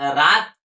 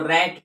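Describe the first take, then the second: First: The vowel is a long 'ah' sound. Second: The vowel is a short 'a' as in cat. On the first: The speaker calls it wrong. "रात थोड़े पढ़ेंगे" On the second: The speaker calls it right. "इसको रैट पढ़ेंगे"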